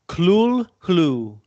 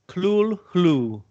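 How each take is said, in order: The two takes are said the same way.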